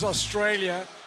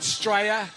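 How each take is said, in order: First: The name is said in full, all syllables. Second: The name is clipped to two syllables, Aussie style. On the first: The speaker calls it wrong. "I'm not pronouncing it right" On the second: The speaker calls it right. "I should call it Straya"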